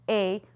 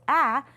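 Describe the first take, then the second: First: The vowel is a long sound. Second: The vowel is a short sound. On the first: "A can also say A, which is what we call the long vowel sound" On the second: "we've already learned the short vowel sound. A says A"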